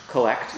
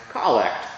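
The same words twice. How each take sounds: First: "collect" said like the verb, kuh-LECT, stress on the second syllable; "collect" with a weak first vowel and the stress on LECT; "collect" as in collecting stamps, kuh-LECT; wrong pronunciation. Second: "collect" stressed on the first syllable, KOL-lect; "collect" with a full open first vowel like "call", COL-lect; "collect" as the prayer's name, COL-lect, first syllable strong; correct pronunciation. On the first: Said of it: "it's not pronounced collect". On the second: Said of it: "It's pronounced collect". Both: Shown as a demonstration.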